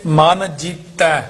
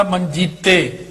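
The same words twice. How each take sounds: First: MAN, then JEETAI with open -ai ending; two separate words. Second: ਮਨਜੀਤੇ run together as one word with -e; -e ending. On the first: Teacher separating ਮਨ from ਜੀਤੈ, slow with open -ai. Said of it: "ਇਹ ਹੈਗਾ ਦਲਾਈਆਂ". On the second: Teacher showing the misreading, ਮਨਜੀਤੇ as one word ending -e. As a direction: end ਮਨਜੀਤੇ on a closed -e. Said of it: "ਇੱਕ ਹੁੰਦਾ ਮਨਜੀਤੇ ਲਾਂ ਨਾਲ". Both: Shown as a demonstration.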